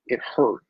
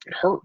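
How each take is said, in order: First: Said in the usual way. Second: Fighting back tears on the repeat; voice breaking. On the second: Real, not acted. Holding back tears remembering losing their home, voice cracking. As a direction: pitch cracks upward on hurt. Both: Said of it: "I told myself I wasn't gonna cry".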